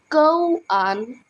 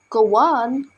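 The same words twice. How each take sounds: First: The two words are said separately. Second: The two words are linked together.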